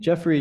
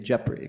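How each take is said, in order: First: The name is said with an American English accent. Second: The name is said with a Tagalog accent. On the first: "Instead of saying" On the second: "how uh, Tagalog speakers would pronounce my name"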